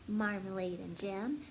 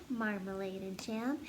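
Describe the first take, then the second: The two takes are said the same way.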